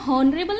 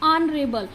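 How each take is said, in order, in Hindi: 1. शब्द की शुरुआत एक सुनाई देने वाली H ध्वनि से होती है। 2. शब्द सीधे एक स्वर ध्वनि से शुरू होता है। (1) "इसको हॉनरेबल नहीं बोलेंगे" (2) "ये एच यहाँ पर साइलेंट है"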